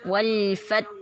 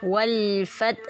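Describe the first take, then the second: Both takes have the same delivery.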